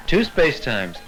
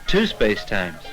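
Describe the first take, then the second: No difference in how they are said.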